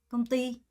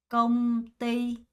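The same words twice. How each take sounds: First: The stress is on the second syllable. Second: Both syllables are said slowly with even stress.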